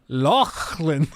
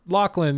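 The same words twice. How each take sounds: First: The name is said with a put-on Scottish accent. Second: The name is said in a plain American accent. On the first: Someone unconnected to the culture tries to sound authentic. The speaker calls it wrong. "they try to say it that way" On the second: The name is said normally without pretense. The speaker calls it right. "you can just say Lachlan"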